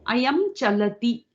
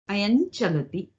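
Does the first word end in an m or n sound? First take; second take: m; n. First: The first word ends with an m sound. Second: The first word ends with an n-like nasal sound.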